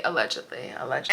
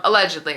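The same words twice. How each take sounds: First: Allegedly said much lower and softer, under the breath; hushed aside. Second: Said in the usual way. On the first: Shown as a demonstration. Repeats allegedly, dropping low.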